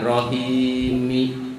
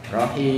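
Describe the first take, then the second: First: "rohimi" drawn out with an open -mi; slow "rohimi", adding i after the m; wrong vowelled ending. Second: "rohim" held long, closed on m; wakaf, final sukun. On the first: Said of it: "Jangan rohimi". ("rohimi" dengan akhir berharakat i) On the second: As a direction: chant "rohim" with no vowel after the m. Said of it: "karena di wakop jadi ro". ("rohim" dibaca wakaf, huruf akhir mati) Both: Shown as a demonstration.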